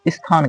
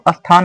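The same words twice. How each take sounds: First: An i sound comes before the s cluster. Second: An a sound comes before the s cluster. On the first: The speaker calls it right. "यहाँ ई की ध्वनि लेकर के आप बोलेंगे तब सही होगा" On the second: The speaker calls it wrong. "यहाँ पे अ नहीं है"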